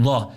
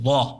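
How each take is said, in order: No difference in how they are said.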